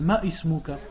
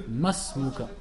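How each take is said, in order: First: Ma ismuka with a hard stop before ismuka; wrong glottal stop. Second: Masmuka linked with no stop; correct liaison. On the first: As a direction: separate ma ismuka with a hamza. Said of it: "font cette erreur". (ma ismuka avec hamza fautive) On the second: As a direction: glide masmuka as one word. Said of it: "alors qu'on dit". (masmuka lié) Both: Shown as a demonstration.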